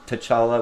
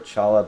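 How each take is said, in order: First: The name begins with a T sound. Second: The name begins without a T sound.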